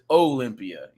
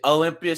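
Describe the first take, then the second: First: Olympia is said with a Southern Alabama accent. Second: Olympia is said with a local Washington accent. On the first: This is how someone from elsewhere says it. "my mom being from Alabama, she says Olympia" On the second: This is how locals say it. "she doesn't say Olympia"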